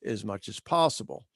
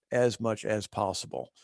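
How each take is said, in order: First: Said in the usual way. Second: Deliberate, spaced-out stress on "as much as possible"; emphasized phrase. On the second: Real, not acted. Webinar presenter underlining a caveat on stress, emphatic "as much as possible". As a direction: set "as much as possible" apart, word by word, settling lower on "possible". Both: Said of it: "Emphasis on the word or words".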